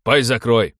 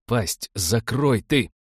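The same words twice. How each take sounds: First: Loud, sharp cut-in; curt, loud command to shut up; angry order. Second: Very slow, weighted command; drawn-out, deliberate silencing; slow menacing order. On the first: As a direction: cut him off with a bark. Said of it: "сказал один из людей в камуфляже". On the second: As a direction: spell out the threat word by word. Same order repeated, drawn out. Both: A narrator's reading.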